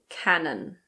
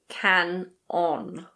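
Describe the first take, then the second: First: It is said as one smooth word. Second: It is split into two separate parts. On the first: The speaker calls it right. "It's Canon" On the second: The speaker calls it wrong. "It's not can-on"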